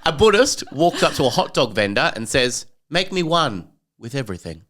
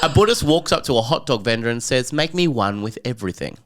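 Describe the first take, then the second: First: A long pause comes before the punchline. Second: The punchline follows without a pause. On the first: The speaker calls it wrong. "the pause seemed unnecessary" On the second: The speaker calls it right. "try it without the pause"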